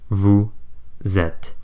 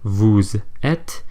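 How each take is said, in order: First: The Z sound opens the second word. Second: The Z sound closes the first word. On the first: The speaker calls it right. "the liaise sound is pronounced at the start of the first syllable in the following word" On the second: The speaker calls it wrong. "we don't say vous êtes"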